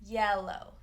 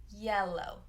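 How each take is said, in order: Both takes have the same delivery.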